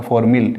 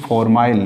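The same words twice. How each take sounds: First: Second formyl ending in short "mil"; -mil variant. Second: First formyl ending like "mile"; -mile variant. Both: Shown as a demonstration. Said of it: "formyl या formyl".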